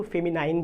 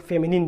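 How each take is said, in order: First: "फेमिनाइन" ending in a long "nine" sound; alternative pronunciation. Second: "फेमिनिन" ending in a "nin" sound; alternative pronunciation. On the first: Teacher shows students how some people say it, "फेमिनाइन" ending like "nine". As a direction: say "फेमिनाइन" with its last syllable rhyming with "line". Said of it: "कुछ लोग इसको फेमिनाइन भी बोलते हैं". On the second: Teacher shows students the other way, "फेमिनिन" ending in "nin". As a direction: say "फेमिनिन" with an i, not an eye sound, at the end. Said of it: "कुछ लोग फेमिनिन भी बोलते हैं". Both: Shown as a demonstration.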